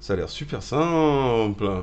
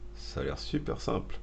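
First: It is said with a mocking, ironic intonation. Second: It is said in a plain, flat reading tone. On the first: The speaker calls it right. "C'était celle-là d'intonation que je voulais" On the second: The speaker calls it wrong. "Non, c'est pas comme ça, faut que je le dise"

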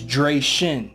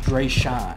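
First: The second syllable sounds like 'Shin'. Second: The second syllable sounds like 'Sean'. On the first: The speaker calls it right. "It's Dre Shin. ... that's how you pronounce it" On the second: The speaker calls it wrong. "your name actually was not Dre Sean"

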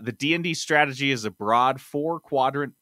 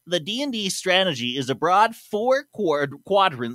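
First: It is said in his own plain voice. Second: It is said in a put-on imitating voice.

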